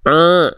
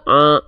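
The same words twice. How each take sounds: First: The vowel sounds nasal, through the nose. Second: The vowel sounds clear, without nasal resonance. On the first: The speaker calls it wrong. "suara yang dia masuk hidung, bindeng" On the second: The speaker calls it right. "enggak masuk hidung begitu"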